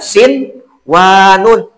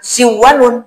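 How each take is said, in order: First: The n is pronounced clearly before the w. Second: The n is merged into the following w. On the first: The speaker calls it right. "Harus dibaca sin wanun" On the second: The speaker calls it wrong. "jangan si wanun"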